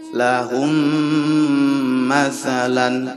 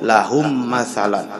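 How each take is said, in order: First: The merged m is held with a nasal hum. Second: The merged m is short, without a nasal hold. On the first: The speaker calls it right. "Jadi harus lahum masalan. Itu yang disebut dengan diidghamkan dan di gunnah" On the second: The speaker calls it wrong. "tidak boleh ... Jadi hanya diidghamkan saja tidak boleh"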